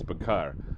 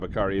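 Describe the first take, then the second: First: The word ends with an 'ar' sound. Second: The word ends with an extra 'ee' sound. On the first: The speaker calls it right. "it's Bakar" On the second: The speaker calls it wrong. "It's not Bakari"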